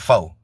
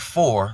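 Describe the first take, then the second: First: The final r sound is dropped. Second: The final r sound is pronounced. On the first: "We say fo" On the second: "they don't say for"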